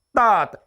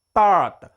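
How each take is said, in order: First: The T releases only a slight puff of breath. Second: The same.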